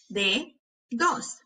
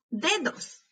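First: "Dedos" slowly as de, pause, dos; broken into syllables. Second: Said in the usual way. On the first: Shown as a demonstration. Teacher helping hear each sound, syllable by syllable. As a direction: break "Dedos" in two. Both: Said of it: "quiero que las quiebres entre sílabas".

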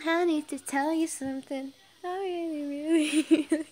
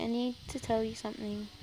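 First: High, loud, playful overacting; mock-dramatic, cracking up at the end; hammed-up confession. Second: Said in the usual way. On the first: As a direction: overplay the confession until laughter breaks through. Hammed-up reread, breaks into laughing.

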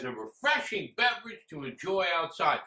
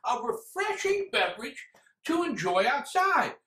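First: Said in the usual way. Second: High, questioning echo of the sales pitch; incredulous repeat. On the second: Acted. Reviewer mocking how the drink is sold, incredulous. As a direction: throw the slogan back in disbelief.

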